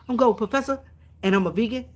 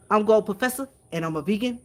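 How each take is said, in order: First: Gold Professor impression. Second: A light try at his smooth, velvety radio voice; Gold Professor impression. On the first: Streamer retries Gold Professor's intro to check she did it right, hammed-up velvety voice. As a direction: put more shine into the announcer voice. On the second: Streamer tries out Gold Professor's velvety intro voice, lightly imitated. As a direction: ease into a mellow announcer intro, first attempt. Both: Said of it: "that's my velvety voice".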